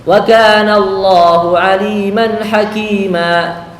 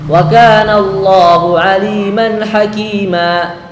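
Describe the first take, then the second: No difference in how they are said.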